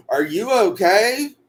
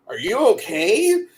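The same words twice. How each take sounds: First: Put-on high, slow country-accent question; mock country accent, rising at the end. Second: High-pitched mock concern, rising question; high retold check-in, lifting at the end; imitating concerned people. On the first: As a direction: imitate concerned country folk, drawn out in their accent. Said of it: "they say in the country accent". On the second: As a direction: ask it high, like worried onlookers. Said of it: "Except for they say in the country accent".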